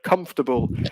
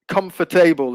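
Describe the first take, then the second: First: The word is shortened, with a syllable dropped. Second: Every syllable of the word is fully pronounced. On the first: The speaker calls it right. "is how we normally pronounce it. It's quite shortened" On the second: The speaker calls it wrong. "is what you were saying"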